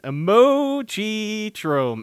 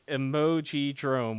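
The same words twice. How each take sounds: First: Each syllable is pronounced clearly and separately. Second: The syllables run together in a slurred way. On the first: The speaker calls it right. "It's all about enunciation" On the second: The speaker calls it wrong. "It just kind of sounds like four wet syllables kind of smacking together"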